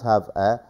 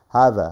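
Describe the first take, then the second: First: The two words are said separately. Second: The v sound links into the a. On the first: The speaker calls it wrong. "not have a" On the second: The speaker calls it right. "فصار دمج بيناتهم, صار إدغام"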